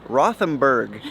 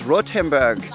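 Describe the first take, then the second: First: The 'th' is said as English th. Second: The 'th' is said as a plain t. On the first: "in American English" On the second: "but it's Rothenburg"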